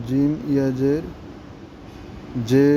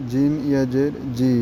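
First: জে with a long Bengali e; majhul e sound. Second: জি with a long ee; maruf long ee. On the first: Teacher drilling ya majhul for pupils, e sound. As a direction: spell it out, then a held 'jay' for জে. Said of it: "একারের আওয়াজটা আসবে". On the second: Teacher drilling ya maruf for pupils, long ee. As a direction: spell it out, then a held 'jee' for জি. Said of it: "দীর্ঘিকারের আওয়াজটা আসবে". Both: Shown as a demonstration.

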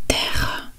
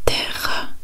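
The two takes are said the same way.

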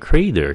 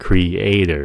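First: Creator squashed into two syllables, CRAY-der; wrong merged vowels. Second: Creator as three clear syllables, cre-A-tor; careful model creator, cre-A-tor; syllables separated. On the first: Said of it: "đừng có creator". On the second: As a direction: split "creator" between cre and ator. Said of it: "tách nó ra". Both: Shown as a demonstration.

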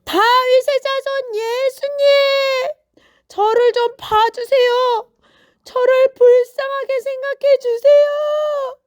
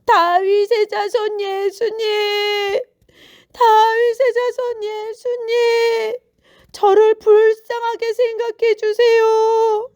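First: Very high, full-voiced, sustained cry; all-out pleading holler; even louder shout. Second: High, loud, drawn-out call; long pleading shouts to someone far away; crying out. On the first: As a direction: yell at the top of your voice for mercy. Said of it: "아주 큰 소리로 소리를 질렀어요". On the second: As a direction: call slowly across a crowd for mercy. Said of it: "소리치기 시작했어요". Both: A narrator's reading.

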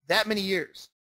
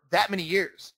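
The two takes are said the same way.

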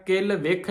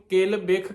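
First: ਵਿਖ with v, vikh; wrong sound. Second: ਬਿਖ with b, bikh; right sound. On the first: Teacher showing the sangat ਬਿਖ said wrongly with v. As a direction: say it as vikh, the mistake. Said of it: "ਵਾਵੇ ਨਾਲ ਨਹੀਂ ਉਚਾਰਨ ਕਰਨਾ". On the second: Teacher showing the sangat ਬਿਖ said with b. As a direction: say ਬਿਖ with a clear b. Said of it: "ਇਹਨੂੰ ਕਿਲ ਬਿਖ ਕਹਿਣਾ ਆ". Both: Shown as a demonstration.

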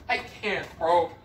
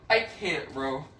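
The two takes are said the same way.

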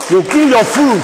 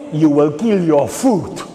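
First: High, loud cry of warning; rally shout. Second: Said in the usual way. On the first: Real, not acted. Speaker warns rally about killing farmers, high shout.

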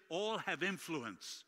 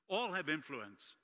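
The two takes are said the same way.

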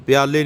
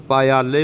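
First: ਪਿਆਲੇ squeezed into two syllables, pya-le; ਪਿਆਲੇ said as the mistaken short form; ਪਿਆਲੇ as students wrongly say it; wrong pronunciation. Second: ਪਾਇਆਲੇ said as pa-ia-le with every syllable sounded; ਪਾਇਆਲੇ spoken carefully as three syllables; ਪਾਇਆਲੇ in its right full form; correct pronunciation. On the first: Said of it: "ਪਿਆਲੇ ਨਹੀਂ ਕਹਿਣਾ". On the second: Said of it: "ਪਾਇਆਲੇ ਬੋਲਣਾ". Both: Shown as a demonstration.

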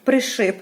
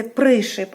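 First: «пришип» stressed on the last syllable, при-ШИП; her earlier wrong stress. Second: «пришип» stressed on the first syllable, ПРИ-шип; correct stress. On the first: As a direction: hit the end of «пришип». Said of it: "а я говорила". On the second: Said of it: "виділили букву «и» з великої букви". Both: Shown as a demonstration.

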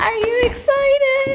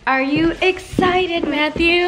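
First: Very high, sing-song excited question. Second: Excited. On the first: Repeats question to child, higher. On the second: Asks child before concert. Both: Real, not acted.

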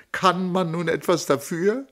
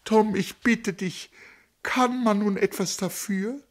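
First: High, stress on "man"; higher pleading question. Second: Much higher imploring to Tom; imploring repeat. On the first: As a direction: ask "Kann man nun etwas dafür?" with stress on "man". First asking. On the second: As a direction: repeat "kann man nun etwas dafür?" hitting "kann", begging. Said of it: "wiederholte sie". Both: Acted.

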